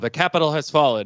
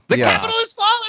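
First: It is said in a dismayed, somber tone. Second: It is said in a gleeful, delighted tone. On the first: The speaker regrets the event. "it's not like he said it with, you know, like, oh" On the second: The speaker celebrates the event. "it was with glee"

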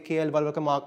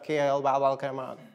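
First: The name is said with Indian pronunciation. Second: The name is said with American pronunciation. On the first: The speaker calls it right. "it will now say" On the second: The speaker calls it wrong. "instead of"

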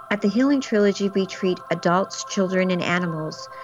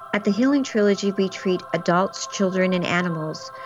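Both takes have the same delivery.

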